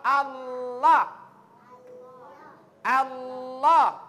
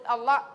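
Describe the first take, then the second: First: Allah louder, lam held and stressed; clear lam. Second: Said in the usual way. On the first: Shown as a demonstration. (Allah dengan lam tebal dan kuat) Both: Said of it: "makanya sebut Allah".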